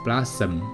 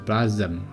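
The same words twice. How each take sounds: First: The middle consonant is a clear s sound. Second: The middle consonant is not an s sound. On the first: The speaker calls it right. "应该是blossom" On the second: The speaker calls it wrong. "不是blossom"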